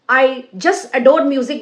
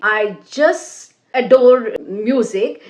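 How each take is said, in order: First: It is said quickly with no pauses. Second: It is said with a pause after each word. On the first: "speak at a great speed" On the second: "after every word you are pausing"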